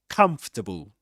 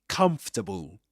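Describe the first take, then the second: The two takes are said the same way.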